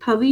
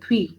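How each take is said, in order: First: A full vowel separates the th and v sounds. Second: The th and v sounds form one cluster. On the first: The speaker calls it wrong. "थवी नहीं पढ़ा जाएगा" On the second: The speaker calls it right. "थ्वी ऐसा पढ़ना है इसको"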